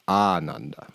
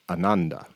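First: The word is drawn out, with some emphasis. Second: The word is short and quick, without emphasis.

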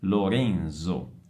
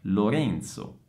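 First: The z is voiced, not ts. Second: The z is voiceless, like ts. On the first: This is how it is said in Brazil. "qui viene pronunciato Lorenzo" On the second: This is how it is said in Italian. "si pronuncia con la Z sorda e quindi è Lorenzo"

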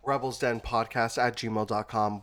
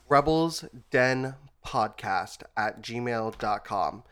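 First: It is said at normal speed. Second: It is said more slowly.

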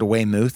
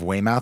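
First: The name is said to rhyme with vermouth. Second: The name is said without rhyming with vermouth.

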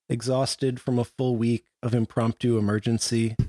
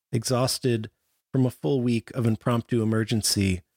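The two takes are said the same way.

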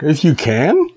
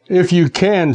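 First: The voice rises like a question. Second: The voice falls flat at the end.

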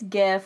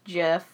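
First: The word begins with a hard G sound. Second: The word begins with a soft J sound. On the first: "I say it's GIF" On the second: "Apparently it's actually pronounced GIF"

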